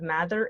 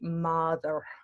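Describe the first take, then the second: First: The R is made at the front, English-style. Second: The R is made deep in the mouth. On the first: The speaker calls it wrong. "instead of mather" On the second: The speaker calls it right. "like it happens back here"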